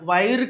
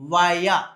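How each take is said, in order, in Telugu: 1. ఇది స్పష్టమైన R శబ్దంతో ముగుస్తుంది. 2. ఇది అచ్చుతో ముగుస్తుంది, R లేదు. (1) "వైర్ కాదు" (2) "సో దాన్ని వయా"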